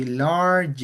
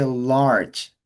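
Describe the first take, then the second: First: Large said with an extra vowel, as two syllables; wrong pronunciation. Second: Large as one clean syllable, slowly; correct pronunciation. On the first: Teacher shows students the wrong form, extra vowel in large. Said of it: "We don't say large". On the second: Teacher models for students the correct one-syllable large. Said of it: "We say large". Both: Shown as a demonstration.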